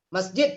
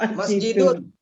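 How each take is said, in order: First: The word ends plainly, with no final ending. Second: The word ends with a full '-un' case ending. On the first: The speaker calls it right. "Kalau netral, ya jangan dibaca ujung" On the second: The speaker calls it wrong. "Masjidun, kita baca apa?"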